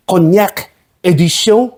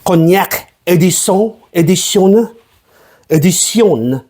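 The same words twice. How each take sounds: First: Said in the usual way. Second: Mock French accent, edition said ee-dee-see-on. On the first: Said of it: "Is that even how you say it?". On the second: Shown as a demonstration. Host trying out cognac edition, mock French accent. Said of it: "saying English words in a French fucking accent".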